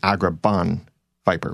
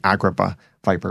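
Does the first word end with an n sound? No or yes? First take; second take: yes; no. First: The first word ends with an n sound. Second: The first word ends without an n sound. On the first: "with the N there at the end" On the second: "before they've referred to it as"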